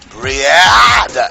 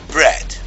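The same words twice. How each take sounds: First: Each letter is sounded, including the A. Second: The A is silent, giving a short eh. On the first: The speaker calls it wrong. "if you follow the letters" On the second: The speaker calls it right. "we have a silent A"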